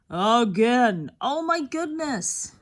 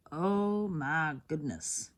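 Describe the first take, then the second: First: Startled exclamation at the card; surprised. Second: Low, slow, sinking oh my goodness; resigned repeat of the exclamation; deflated. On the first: Shocked at repeated card. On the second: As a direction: let it sag into a weary groan. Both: Real, not acted.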